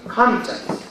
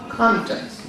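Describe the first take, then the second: First: The stress is on the first syllable. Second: The same.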